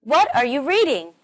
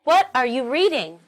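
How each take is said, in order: First: What punched at the start, reading stressed. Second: What punched, reading stressed. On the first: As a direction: hit What, then reading. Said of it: "pay attention to the way I stress these sentences". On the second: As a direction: hit what, then reading. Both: Shown as a demonstration.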